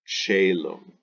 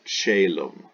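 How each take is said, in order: Both takes have the same delivery.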